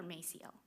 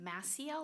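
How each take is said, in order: First: Maciel with first syllable like "may"; alternative name pronunciation. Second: Maciel with first syllable like "mass"; alternative name pronunciation. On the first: Chair checking a substitute's surname, second pronunciation offered. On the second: Chair checking a substitute's surname, first pronunciation offered. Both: Shown as a demonstration. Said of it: "is it Maciel or Maciel?".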